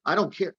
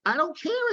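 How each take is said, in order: First: Said in the usual way. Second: "care" pitched much higher with a rise; emphatic repeat. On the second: Real, not acted. Doctor insists to Adele, "care" much higher. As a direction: push "I don't care" up high the second time. Repeats phrase, second raised.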